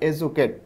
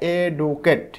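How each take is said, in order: First: The middle consonant is a J sound. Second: The middle consonant is a plain D sound. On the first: The speaker calls it right. "কিন্তু হবে উচ্চারণটা এজুকেট" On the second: The speaker calls it wrong. "এটা কিন্তু মনে হচ্ছে এডুকেট"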